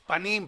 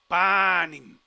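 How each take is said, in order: First: The stress is on the last syllable. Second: The stress is on the first syllable. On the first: The speaker calls it right. "porque el acento va aquí en la I" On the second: The speaker calls it wrong. "perdón"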